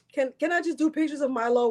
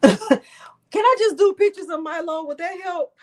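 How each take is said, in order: First: Said in the usual way. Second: High, loud, half-laughing through real tears; teary laughing plea. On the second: Real, not acted. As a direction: laugh it out while still fighting tears, much higher. Teary after crying on stream.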